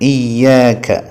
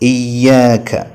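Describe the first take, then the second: No difference in how they are said.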